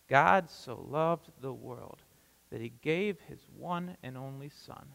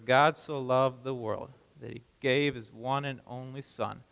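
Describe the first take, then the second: First: The verse is read more slowly. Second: The verse is read at a normal pace.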